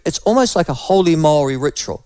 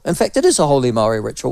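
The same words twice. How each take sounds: First: Said in the usual way. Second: Quick correction leaning on "is"; stress on is. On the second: Real, not acted. Host correcting himself on the ritual, stressing "is". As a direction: hit "is" to firm up the claim.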